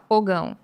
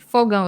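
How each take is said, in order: First: The word begins with a P sound. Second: The word begins with an F sound. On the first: The speaker calls it wrong. "ele fala pogão" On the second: The speaker calls it right.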